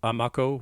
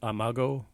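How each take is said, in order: First: The last syllable starts with a K sound. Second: The last syllable starts with a G sound. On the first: "with a, a K pronunciation" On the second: "with a G"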